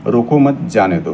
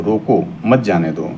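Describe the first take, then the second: First: रोको मत run together, then जाने दो; group मत with रोको, break before जाने दो; रोको मत as one phrase, जाने दो apart; pause after मत. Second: रोको, then a short pause before मत जाने दो; comma pause after रोको. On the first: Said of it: "इनके भाव बदल जाएंगे". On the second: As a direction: break after रोको, run मत जाने दो together. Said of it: "रोको के बाद कामा". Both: Shown as a demonstration.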